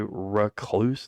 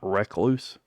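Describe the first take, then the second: First: The first syllable sounds like ruh. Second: The first syllable sounds like reck. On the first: The speaker calls it right. "say recluse, R U H" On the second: The speaker calls it wrong. "not recluse. ... sounds like you're reckless"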